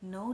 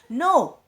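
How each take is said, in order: First: It is said softly in a warm, gentle pitch. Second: It is said sharply in a high, angry pitch. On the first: The speaker is refusing kindly, without negativity. "which means something positive" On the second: The speaker is annoyed and refusing. "I'm angry... I'll say in a high pitch"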